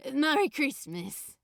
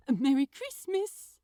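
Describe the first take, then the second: First: Louder, dazed and lovestruck; dopey. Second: Louder, cheery greeting; bright. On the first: Smitten young man answering, dopey and dazed. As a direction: say it in a happy daze. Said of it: "Crowley said dopily in return". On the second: Shopkeeper wishing his friend well, bright and cheery. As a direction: sing it out brightly. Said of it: "Aziraphale said brightly". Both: A narrator's reading.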